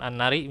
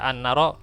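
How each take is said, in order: First: The final vowel is an 'i' sound. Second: The final vowel is an open 'a' sound. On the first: The speaker calls it wrong. "bukan an-nari" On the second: The speaker calls it right. "harusnya misalnya membaca an-naro"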